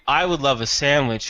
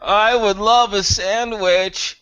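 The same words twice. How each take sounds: First: It is said in a plain, normal voice. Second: It is said in a weird, moaning voice.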